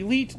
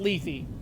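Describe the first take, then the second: First: The name is one syllable ending in t. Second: The name ends with a th sound. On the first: The speaker calls it right. "it's actually Leet" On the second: The speaker calls it wrong. "the stupidest fucking pronunciation for that I've ever heard"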